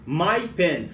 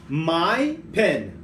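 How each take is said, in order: First: Said in the usual way. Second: Slow teaching demo. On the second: Shown as a demonstration. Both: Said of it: "Eu falo assim, ó".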